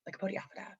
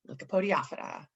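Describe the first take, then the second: First: The word is said at a fast pace. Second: The word is said at a slow pace.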